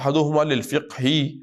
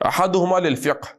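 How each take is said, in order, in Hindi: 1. यह शब्द एक छोटे जुड़े हुए स्वर के साथ खत्म होता है। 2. यह शब्द एक खाली अंतिम व्यंजन पर खत्म होता है। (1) "आगे मिलाकर पढ़े, बल्कि हरकत अदा करके पढ़े" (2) "काफ पर जज्म है"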